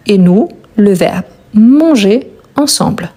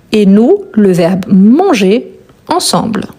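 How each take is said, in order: Both takes have the same delivery.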